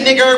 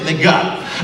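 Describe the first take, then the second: First: The word ends with an er sound. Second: The word ends with an ah sound. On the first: "We didn't say" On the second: The term is taken and used as one's own. "we said"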